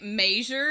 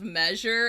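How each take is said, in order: First: It is said the way Ohioans pronounce it. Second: It is said the usual non-Ohio way. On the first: "Ohioans say measure" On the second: "instead of measure"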